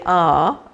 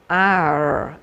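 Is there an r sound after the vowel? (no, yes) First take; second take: no; yes. First: The vowel is said with no r sound. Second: The vowel is followed by an r sound. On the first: This is the southern English way. "we say ah" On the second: This is the listener's Irish way. "and you're going ar"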